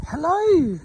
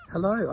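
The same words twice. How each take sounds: First: High sing-song hello to the ponies; squeaky, loud, cooing hello; high greeting. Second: Said in the usual way. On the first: Real, not acted. Greeting the miniature horses.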